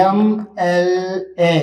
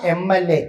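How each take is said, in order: First: "എം എൽ എ" letter by letter, with pauses; sounded out slowly. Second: Said in the usual way. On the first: Shown as a demonstration. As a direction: stretch each letter of "എം എൽ എ" to show its first sound. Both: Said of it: "ഉച്ചരിക്കുമ്പോൾ നമുക്ക് എന്താ ലഭിക്കുക?".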